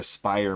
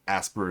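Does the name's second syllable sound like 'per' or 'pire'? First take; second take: pire; per. First: The second syllable sounds like 'pire'. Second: The second syllable sounds like 'per'. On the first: The speaker calls it right. "but it's actually Aspire" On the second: The speaker calls it wrong. "Asper is what I keep pronouncing it as"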